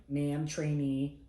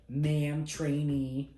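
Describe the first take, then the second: First: Very slow, careful recruit repetition; slow hesitant repeat. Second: Higher, louder imitated command; crisp instructor demo. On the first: Retold or imitated. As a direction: drag it out unsure of the words. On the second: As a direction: snap it out as an order. MTI demonstrating reporting statement.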